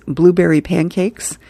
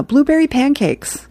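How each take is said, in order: First: Said in the usual way. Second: Put-on higher-pitched little kid voice, falling at the end; kid's order. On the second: Hammy orders breakfast from Mom, in a high kid voice. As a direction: chirp the order like an eager small child.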